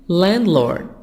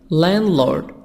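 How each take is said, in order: Both takes have the same delivery.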